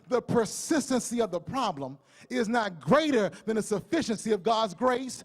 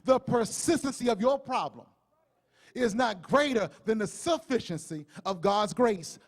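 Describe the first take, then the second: First: It is said at normal speed. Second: It is said very slowly.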